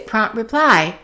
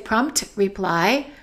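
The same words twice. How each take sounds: First: The T in prompt is held, not released. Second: The T in prompt is fully released. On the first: The speaker calls it right. "Let's hold the T of prompt" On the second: The speaker calls it wrong. "so we don't say prompt reply"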